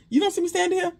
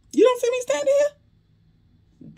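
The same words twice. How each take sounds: First: Higher, fast, snappy comeback; quicker sassy retort. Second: Very high, slow, drawn-out squeal of offense; exaggerated high mock retort. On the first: Retold or imitated. Recapper's version of how Bayou should have answered, fast and sassy. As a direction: fire it back quick with attitude. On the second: Recapper overplays Bayou's retort to Sabrina, very high and slow. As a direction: stretch it way up high and slow, overdoing the outrage. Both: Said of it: "That would've been".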